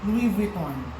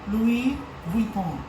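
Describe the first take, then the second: First: The name is said with an American accent. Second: The name is said with a French accent. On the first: "for neutral Filipino accent or Americanized accent, you'd say" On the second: "kung French yung way ng pagkaka-pronounce, they would say"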